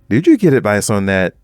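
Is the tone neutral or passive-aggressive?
passive-aggressive. It is asked in a passive-aggressive tone.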